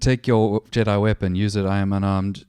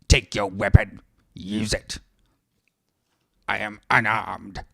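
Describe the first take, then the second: First: It is read in the speaker's normal voice. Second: It is said in an Emperor Palpatine voice.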